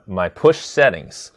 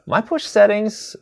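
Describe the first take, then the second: First: Said in the usual way. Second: Much higher, slow pickup of the topic; bright repeat. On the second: Shown as a demonstration. Streamer picks up viewer's chat question, much higher. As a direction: lift it up high and slow as the new topic.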